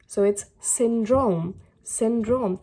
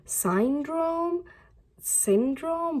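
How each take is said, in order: First: "syndrome" said slowly and clearly, falling at the end; clear, confident "syndrome" with each syllable sounded; careful pronunciation. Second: "Syndrome?" asked twice with a high, puzzled rise; unsure, questioning "Syndrome?". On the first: Shown as a demonstration. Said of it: "That's how you break big words into small words". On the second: Retold or imitated. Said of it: "and now you're like".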